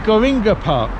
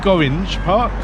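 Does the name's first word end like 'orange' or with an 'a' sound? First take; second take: a sound; like orange. First: The name ends with an 'a' vowel sound. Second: The name ends rhyming with 'orange'. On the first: The speaker calls it right. "So it must be Goringa" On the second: The speaker calls it wrong. "Probably Goringe Park"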